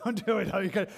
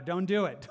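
First: Chuckling warning, a little louder; amused, laughing it off. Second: Said in the usual way. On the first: Real, not acted. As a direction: repeat it through a laugh. Repeat of warning, laugh heard.

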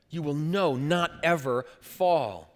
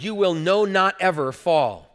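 First: Slow solemn repeat. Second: Louder, every word of "you will know not ever fall" pressed hard; quoting Peter with firm, loud stress; emphatic quote. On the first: Shown as a demonstration. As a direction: let "You will know not ever fall" sink in slowly. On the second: Retold or imitated. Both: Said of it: "Peter's very emphatic".

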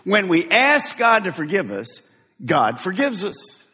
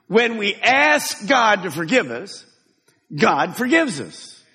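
First: Said in the usual way. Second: Slower, weighty repeat of the line; emphatic. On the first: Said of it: "I want you to say to your neighbor". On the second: Shown as a demonstration. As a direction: ask and forgives leaned on slowly. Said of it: "say it with some emphasis".

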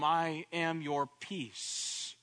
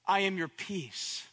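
First: I am your peace, drawn out slowly; solemn, slow promise; slow declaration. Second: Said in the usual way. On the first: Shown as a demonstration. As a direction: let each word of I am your peace land slowly. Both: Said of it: "I am your Sar Shalom".

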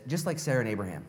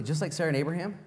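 First: Said in the usual way. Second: "Just like Sarah and Abraham" asked with a rising, doubting tune; incredulous question. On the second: Shown as a demonstration. Preacher questioning Peter's comparison, rising in disbelief.

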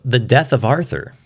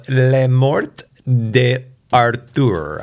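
First: Said in the usual way. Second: Makeshift French accent, slightly raised pitch; French accent, earnestly attempted. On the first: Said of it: "But it's called". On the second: Shown as a demonstration. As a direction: read the title in your best amateur French. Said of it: "that's my best French accent".

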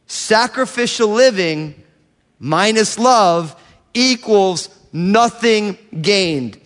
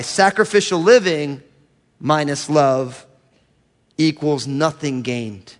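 First: "Sacrificial living minus love equals nothing gained" higher, slow, each part set apart; emphatic repetition. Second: Said in the usual way. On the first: Real, not acted. Preacher repeats his equation to the congregation, slow and emphatic.

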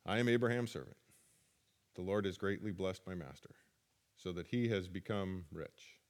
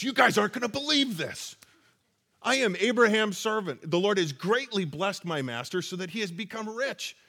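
First: Low, soft and dull, a lifeless recital; flat reading. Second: Excited telling. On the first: Shown as a demonstration. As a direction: read it like a bored list. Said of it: "You think that's how he said it? I don't". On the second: Retold or imitated. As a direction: tell it like you can't hold it in. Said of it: "I gotta think that after everything... he goes".

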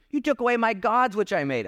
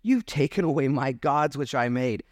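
First: Higher, whining complaint about his gods; mocking whiny Micah. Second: Said in the usual way. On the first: Pastor mocking Micah's complaint, higher and whiny. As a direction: poke fun at Micah's self-made gods. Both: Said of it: "Isn't that funny?".

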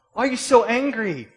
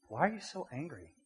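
First: Much higher, much louder demand; shouted confrontation. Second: Said in the usual way. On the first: Acted. Preacher demanding answers of the angry person, shouting. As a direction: yell the question in mock exasperation. Repeats question as acted confrontation.

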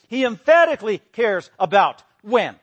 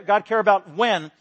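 First: Loud, slowed stress on "emphatically" and "when"; emphatic. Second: Said in the usual way. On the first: Shown as a demonstration. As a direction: hammer "emphatically cares about when" word by word.

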